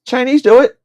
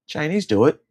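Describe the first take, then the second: First: High, loud blurt of the punchline; loud exclamation. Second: Said in the usual way. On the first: Acted. Ranting about eating cats, shouting it loud and high.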